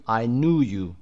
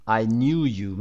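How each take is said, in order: First: "knew" as American "noo", no y-glide; American pronunciation. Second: "knew" as British "nyoo", with a y-glide; British pronunciation. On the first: Teacher contrasting with British, American "knew" as "noo". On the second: Teacher giving a British example sentence, "knew" as "nyoo". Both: Shown as a demonstration.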